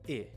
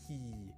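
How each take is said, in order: First: The vowel is made at the tongue tip. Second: The vowel is made mid-tongue, mid-mouth. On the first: The speaker calls it right. "the natural short I sound, happens more towards the front of your mouth" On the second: The speaker calls it wrong. "If we're making the Japanese I, ... it's happening in the middle of your tongue and in the middle of your mouth"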